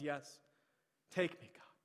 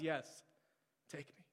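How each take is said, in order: First: Said in the usual way. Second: Quiet, hushed yes, take me; soft surrender. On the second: Acted.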